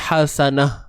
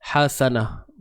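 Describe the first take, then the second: First: The word ends with an h sound. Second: The word ends with an h sound.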